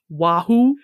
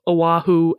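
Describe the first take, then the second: First: The word is said as wahoo. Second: The word is said as oh-ah-hoo. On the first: The speaker calls it wrong. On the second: The speaker calls it right.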